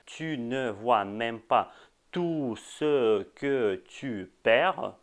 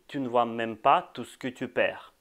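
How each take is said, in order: First: Every syllable is pronounced fully and carefully. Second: Some vowels are dropped, making it shorter. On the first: This is the standard French form. "en français standard, ce serait plutôt" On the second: This is the casual everyday form. "pour qu'elle soit plus courte, on dit"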